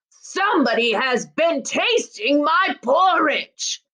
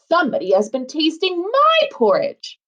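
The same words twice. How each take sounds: First: It is said in a great big voice. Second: It is said in a middle-sized voice.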